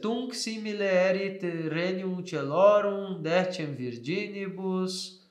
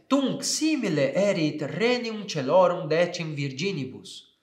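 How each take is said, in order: First: It is read hesitantly, with doubt. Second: It is read confidently, with expressive intonation. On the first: The speaker calls it wrong. "Eu não posso ler assim, ... com dúvida aqui, não vai funcionar" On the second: The speaker calls it right. "ao buscá-la eu começo a notar as nuances do texto"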